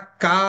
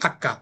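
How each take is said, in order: First: The word is drawn out and lengthened. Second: The word is said short and plain. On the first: The speaker calls it wrong. "Hakka এরকম টানা যাবে না" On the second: The speaker calls it right. "Simply Hakka"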